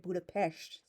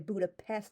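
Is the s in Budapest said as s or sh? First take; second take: sh; s. First: The s is said as sh. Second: The s is said as a plain s. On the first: The speaker calls it right. "they say Budapest" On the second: The speaker calls it wrong. "they don't say Budapest"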